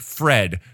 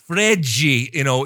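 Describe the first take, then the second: First: The name is said as one short syllable. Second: The name ends with an added 'ji' sound. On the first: "simplistic Fred" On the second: "turned into like a 2.5 syllable Fredji"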